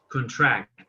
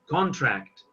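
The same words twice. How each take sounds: First: The stress is on the second syllable. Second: The stress is on the first syllable. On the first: It is used as a verb meaning to reduce. "the verb is contract" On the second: It is used as a noun meaning an agreement. "but the noun is contract"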